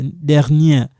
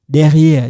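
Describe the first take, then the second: First: "dernière" said dɛʁ-njɛʁ, with the n clearly heard; correct dernière. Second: "derrière" said dɛ-ʁi-ɛʁ, no n sound; wrong word derrière. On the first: Teacher gives students the right word, dernière, clearly sounding the n. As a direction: land the n in "dernière". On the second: Teacher shows students the false friend, derrière, as the mistake. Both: Shown as a demonstration. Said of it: "les faux amis".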